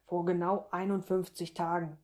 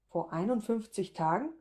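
First: "einundfünfzig Tagen" evenly stated, settling down; precise answer. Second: "einundfünfzig" swung up, "Tagen" rising sharply as a question; astonished echo. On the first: Man telling her the date of their night, precise statement. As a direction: answer exactly, level through "einundfünfzig". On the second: Woman realising when she conceived, astonished echo. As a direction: echo the number as it sinks in. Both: A narrator's reading.

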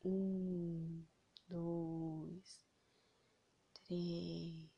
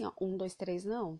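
First: Slow, soft, spaced count. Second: Fast, rattled-off count; rushed counting. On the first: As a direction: count each number slowly. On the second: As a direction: count far too quickly. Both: Shown as a demonstration. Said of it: "esses três segundos não é assim".

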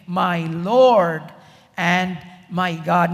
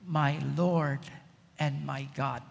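First: Said in the usual way. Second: Much lower and softer, hushed; awed whisper of faith. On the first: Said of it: "Thomas said to him". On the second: Acted. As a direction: breathe it out in awe. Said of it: "Thomas said these classic words".

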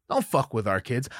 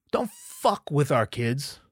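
First: Said in the usual way. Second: Slow, deliberate warning. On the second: Real, not acted. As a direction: spell it out slowly and firmly.

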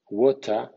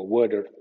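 First: American "water", T sounds like D; American flap T. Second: "water" pronounced with a crisp T; careful "water", T kept; "water" with a clear T. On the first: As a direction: say "water" as "wada". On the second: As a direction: say "water" with a hard T. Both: Shown as a demonstration. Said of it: "T suene D".

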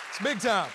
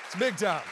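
The two takes are said the same way.

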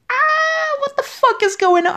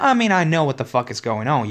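First: High, loud disbelieving shout; outraged yell. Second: Said in the usual way. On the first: Real, not acted. Fan yelling at the show, high and loud. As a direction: scream it at the screen in disbelief.

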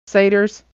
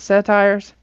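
First: "Satyrs" said SAY-ters; pronunciation trial. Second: "Satires" with a long i, SA-tires; pronunciation trial. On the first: Reader offering friends the other option, "Satyrs" said SAY-ters. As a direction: try "Satyrs" with a long a and short ending. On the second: Reader asking friends about a word, "Satires" said SA-tires. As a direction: try "Satires" ending like "tires", as a question. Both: Shown as a demonstration. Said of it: "how do we pronounce that?".

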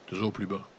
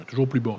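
First: Softer, sinking voice; lower and softer. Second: Said in the usual way. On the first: Shown as a demonstration. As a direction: let it drop away, quieter. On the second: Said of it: "ça l'est dit".

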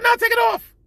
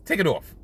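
First: Insistent. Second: Said in the usual way. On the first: Retold or imitated. Insists again after refusal.

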